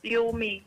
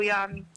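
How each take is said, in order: First: The first vowel sounds like 'oo'. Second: The first vowel sounds like 'a'. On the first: The speaker calls it right. "Yumi, hindi po Yami" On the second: The speaker calls it wrong. "hindi po Yami"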